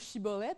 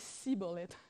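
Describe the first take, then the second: First: The word begins with an 'sh' sound. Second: The word begins with an 's' sound. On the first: The speaker belongs to the right group. The speaker calls it right. "ils demandaient de prononcer le mot shibboleth" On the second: The speaker belongs to the other group. The speaker calls it wrong. "il y a un des deux qui disait"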